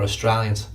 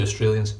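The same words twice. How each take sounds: First: "Australians" said as locals say it; "Australians" with an Aussie pronunciation. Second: Said in the usual way. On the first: Shown as a demonstration. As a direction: imitate the local way of saying "Australians". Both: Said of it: "as they are over here".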